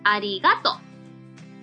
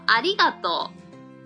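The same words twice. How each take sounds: First: It is said in Hiroshima dialect, pitch rising on ga. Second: It is said in standard Japanese.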